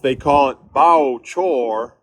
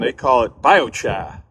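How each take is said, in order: First: It is said in a Southern accent. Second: It is said in a New England accent.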